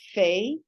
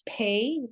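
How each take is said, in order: First: It begins with a soft F sound. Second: It begins with a hard P sound. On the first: "the soft F" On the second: "the hard P"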